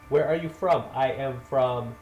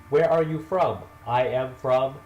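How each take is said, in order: Both takes have the same delivery.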